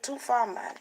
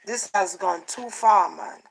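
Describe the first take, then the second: First: "Too far, man" с лёгким ямайским акцентом; a light Jamaican lilt on "Too far, man"; Jamaican accent. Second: Said in the usual way. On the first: Shown as a demonstration. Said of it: "in Jamaican accent". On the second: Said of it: "like, in Jamaican accent".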